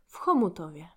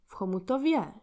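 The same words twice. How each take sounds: First: The stress is on the first syllable. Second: The stress is on the fourth syllable. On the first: "the first one is correct" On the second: "to the last syllab"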